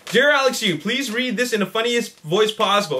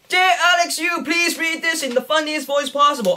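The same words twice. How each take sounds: First: It is read in his normal voice. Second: It is read in a funny put-on voice.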